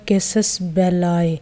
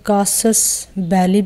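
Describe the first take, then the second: First: The second word ends in an 'eye' sound. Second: The second word ends in an 'ee' sound. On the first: The speaker calls it right. "इसके जो correct pronunciation है वो है" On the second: The speaker calls it wrong. "आप इसे कई जगह पर और कई लोगों के मुंह से कासस बैली भी सुनेंगे"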